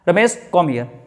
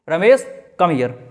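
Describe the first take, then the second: First: There is a short pause after the name. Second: There is a short pause after the name.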